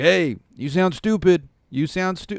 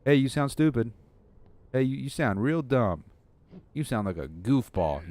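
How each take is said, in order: First: High, loud monster jeer; drawn-out, high-pitched mocking shout; taunting monster. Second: Lightly put-on dumb-guy taunt; mildly dopey mockery, raised at first; own dumb voice. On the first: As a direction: yell the taunt as a mock monster chasing its victim. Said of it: "that's what the monster says". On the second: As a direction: jeer in a goofy take on your own voice. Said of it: "in my own dumb voice".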